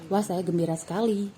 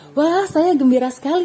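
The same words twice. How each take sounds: First: It is said in a flat, monotone voice. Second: It is said with lively, varied intonation. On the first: The speaker calls it wrong. "Kan tidak mungkin" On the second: The speaker calls it right. "menggunakan intonasi yang tepat"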